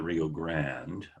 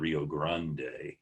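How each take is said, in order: First: It is pronounced the way Texans say it. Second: It is pronounced the way other regions say it. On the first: "In Texas, they call it the Rio Grande" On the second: "Other places call it the Rio Grande"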